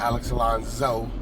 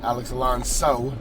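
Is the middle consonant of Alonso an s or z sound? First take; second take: z; s. First: Alonso is said with a buzzing z sound. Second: Alonso is said with a hissing s sound. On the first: The speaker calls it wrong. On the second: The speaker calls it right. "with an S"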